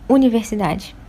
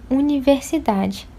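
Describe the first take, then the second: First: The u and ni syllables are squeezed together. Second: The u and ni syllables have equal length. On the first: The speaker calls it wrong. "e não universidade" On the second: The speaker calls it right. "o U e o NI, eles têm a mesma duração quando eu falo"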